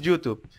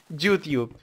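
First: The word is pronounced plainly and normally. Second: The word is pronounced in an exaggerated way. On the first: "en realidad es YouTube" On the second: "siempre suelo exagerar las expresiones y las palabras en inglés"

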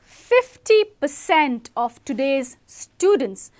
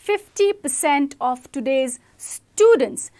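First: The stress falls on the number fifty percent. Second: The stress falls on the word students. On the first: The size of the figure is what matters. "Here, 50% is a very important data point" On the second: The group affected is what matters. "because you are emphasizing on students"

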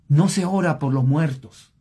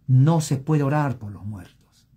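First: It is said at normal speed. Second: It is said slowly.

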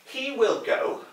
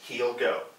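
First: The word will is said in full. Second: The word will is contracted onto he.

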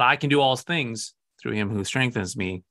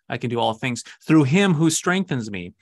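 First: The word "I" is stressed. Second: The word "him" is stressed. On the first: The strength comes from the speaker himself. The speaker calls it wrong. "Not that I can do all things through him who strengthens me quietly" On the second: The strength comes from Christ. The speaker calls it right. "We should be reading the other way"

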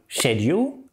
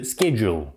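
First: It is said with a British pronunciation. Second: It is said with an American pronunciation. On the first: "Британцы скажут" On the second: "а американцы"

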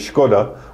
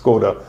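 First: The name is said with a Czech pronunciation. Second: The name is said with an American pronunciation. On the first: "The Czech way is Škoda" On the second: "the one that everybody else says"

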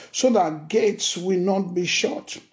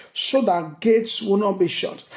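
Both takes have the same delivery.

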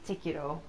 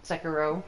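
First: The name is said with Japanese pronunciation. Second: The name is said with American pronunciation. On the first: "in Japanese it'd be Sekiro" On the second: "Over here in the States, probably Sekiro"

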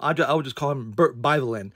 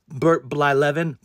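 First: The surname starts with a plain 'b' sound. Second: The surname starts with a 'bl' cluster. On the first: The speaker calls it wrong. "I would just call him Bert Byvelin. Because I couldn't pronounce it" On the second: The speaker calls it right. "His name is Bert Blylevin"

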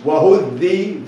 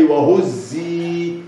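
First: The consonant is a th-like sound, tongue between teeth. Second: The consonant is a plain z sound. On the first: The speaker calls it wrong. "ما قاليش وهذي ذي، لا، ما حطش لسانه وبين اسنانه" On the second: The speaker calls it right. "قال لي وهزي، يبقى الزي العاديه"

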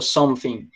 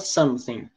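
First: The th sound is pronounced like an f. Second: It is said with a standard British accent. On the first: "principalmente Londres, eles falam something. Como se fosse um R, ou um F, desculpa" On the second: "Na Inglaterra, boa parte fala something"

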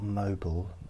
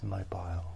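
First: The last syllable is reduced, like 'bull'. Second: The last syllable has a full 'aisle' vowel. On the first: The speaker calls it wrong. "It's not mobile, M-O-B-L-E" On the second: The speaker calls it right. "It's mobile. B-M-O-B-I-L-E"

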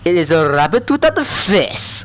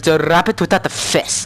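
First: It is spoken with a French accent. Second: It is spoken in the speaker's plain accent.

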